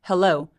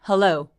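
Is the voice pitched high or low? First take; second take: low; low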